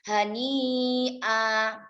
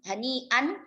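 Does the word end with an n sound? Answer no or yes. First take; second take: no; yes. First: The word ends on a vowel, no n. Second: The word ends with an n sound. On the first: The reader stops on this word. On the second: The word is read on without stopping.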